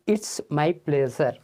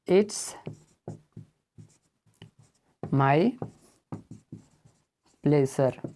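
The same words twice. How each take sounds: First: Said in the usual way. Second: "It's my pleasure" with each word set apart by long pauses. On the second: Shown as a demonstration. Teacher to students, slowly word by word. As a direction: lay each word down separately for the class.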